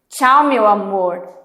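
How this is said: It sounds angry and ironic. She is saying goodbye right after a fight. "E ela tá com raiva. Ela pode ser até um pouco irônica"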